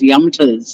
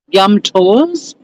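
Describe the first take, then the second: First: The second syllable is reduced to 'ters'. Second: The second syllable is said fully as 'tours'. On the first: The speaker calls it wrong. "I kept being referred to as Yumters" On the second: The speaker calls it right. "pronounce it the right way"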